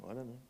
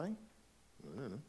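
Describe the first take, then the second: First: Said in the usual way. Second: Slow, stretched-out, unsure I don't know; drawn-out uncertainty. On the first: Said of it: "Is it not true?". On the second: Shown as a demonstration. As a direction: let the words hang as if truly unsure. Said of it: "Are they?".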